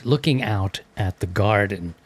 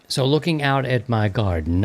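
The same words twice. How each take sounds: First: Looking out at the garden in a mock posh British accent. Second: Said in the usual way. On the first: Shown as a demonstration. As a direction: play it like an Englishman admiring his garden. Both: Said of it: "with my best British accent".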